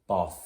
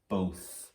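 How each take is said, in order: First: The vowel is a short o sound. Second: The vowel is a long o sound. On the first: The speaker calls it wrong. "that doesn't sound like a real word" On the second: The speaker calls it right. "I'll try it the other way. That does sound like a real word, so I'm putting that in my long O section"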